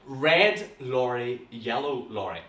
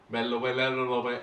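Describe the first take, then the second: First: Red lorry yellow lorry said slowly, each word apart; slow tongue twister. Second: Slurred, fast "red lorry, yellow lorry" tripping over itself; mumbled tongue twister. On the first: Shown as a demonstration. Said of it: "we're gonna take it slowly". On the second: Retold or imitated. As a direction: garble "red lorry, yellow lorry" as if it beats you. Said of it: "I find this extremely hard".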